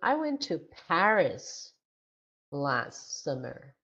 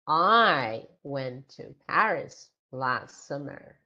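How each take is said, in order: First: The stress falls on the word Paris. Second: The stress falls on the word I. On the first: It tells where the person went. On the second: It tells who went.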